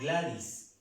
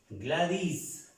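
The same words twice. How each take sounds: First: The stress is on the first syllable. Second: The stress is on the last syllable. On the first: The speaker calls it wrong. "no Gladys" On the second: The speaker calls it right. "vamos a hacer un acento más fuerte aquí en la I y la S"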